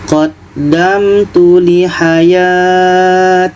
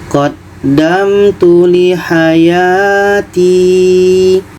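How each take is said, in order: First: The final vowel is dropped, ending abruptly. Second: The final vowel is held long. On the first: The speaker calls it wrong. "atau kita matikan" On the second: The speaker calls it right. "Contoh dipanjangkan"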